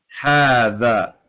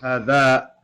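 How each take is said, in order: First: The first vowel is long. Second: The first vowel is short. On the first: The speaker calls it right. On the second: The speaker calls it wrong.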